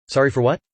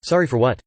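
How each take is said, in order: First: "Sorry for what?" rising at the end like a real question. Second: "Sorry for what?" with a falling, forceful close; exclaimed. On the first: Husband pleading with his wife for an answer, questioning. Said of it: "Question mark". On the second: Husband demanding an answer from his crying wife, exclaimed. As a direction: demand it, not ask it. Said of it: "Exclamation mark". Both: A narrator's reading.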